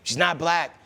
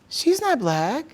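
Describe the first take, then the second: First: The line is delivered in a hard, harsh way. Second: The line is delivered in a softer, milder way. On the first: "I read it kind of hard" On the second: "I'll say it how she probably would say it"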